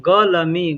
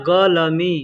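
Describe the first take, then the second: The two takes are said the same way.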